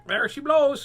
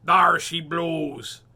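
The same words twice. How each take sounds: First: High, loud parrot squawk. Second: Loud, slow pirate holler; pirate version before the correction. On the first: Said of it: "squawked the parrot". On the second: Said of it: "Nope, that was the parrot". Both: Acted.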